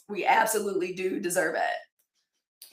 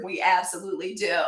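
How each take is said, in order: First: Absolutely stressed, said slowly and firmly. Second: Said in the usual way. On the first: Real, not acted. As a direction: lean hard on absolutely, slow down.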